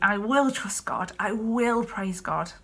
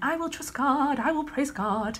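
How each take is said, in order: First: It sounds strained, said through gritted teeth. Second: It sounds light, cheerful and positive.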